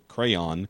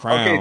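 First: It has two syllables with an 'ay' vowel. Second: It is one syllable, rhyming with 'down'. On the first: "whether you have the A-Y sound in there" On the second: "a lot of people actually say straight up crown"

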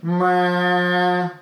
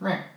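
First: It is a full, strong sound with lots of air. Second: It is a small, weak sound with little air.

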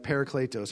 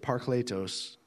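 First: It is said with a plain English accent. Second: It is said with a Greek accent.

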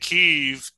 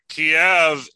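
First: The name is said with the Ukrainian pronunciation. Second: The name is said with the Russian pronunciation. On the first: "And Kiev is the Ukraine way to say it" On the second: "Kiev is the Russian pronunciation of their capital"

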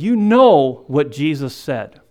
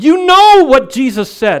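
First: The phrase is said at normal volume. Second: The phrase is said at a louder volume.

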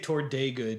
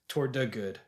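First: The word 'the' is said like 'thee'. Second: The word 'the' is said like 'thuh'. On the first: The speaker calls it wrong. "I say toward day good usually" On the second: The speaker calls it right. "It should be"

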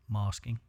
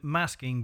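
First: It is said in a southern English accent. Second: It is said in a northern English accent.

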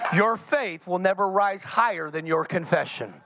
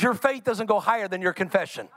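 First: It is said at a slower pace. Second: It is said at a quicker pace.

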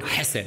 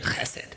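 First: The word begins with a soft h sound. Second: The word begins with a harsh throat sound.

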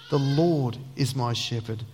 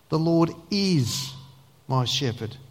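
First: The stress is on the word Lord. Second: The stress is on the word is.

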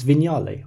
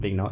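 First: The word is pronounced unlike its spelling. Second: The word is pronounced letter by letter, as spelled. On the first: The speaker calls it right. "It's Vignale" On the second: The speaker calls it wrong. "it's spelt Vignale, and it's definitely not Vignale"

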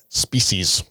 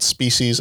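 First: It is said imitating Captain Jean-Luc Picard. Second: It is said in his normal voice.

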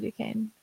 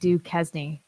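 First: The name is pronounced differently from its spelling. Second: The name is pronounced the way it is spelled. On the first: The speaker calls it right. "It's obviously Duquesne" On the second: The speaker calls it wrong. "It does look like Duquesne, which that's clearly not how you say it"

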